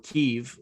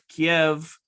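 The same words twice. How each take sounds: First: The city name is said the Ukrainian way. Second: The city name is said the Russian way.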